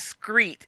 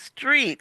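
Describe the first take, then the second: First: The word starts with an scr sound. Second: The word starts with an str sound. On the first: The speaker calls it wrong. "they always would pronounce it like it's S C R" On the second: The speaker calls it right. "instead of"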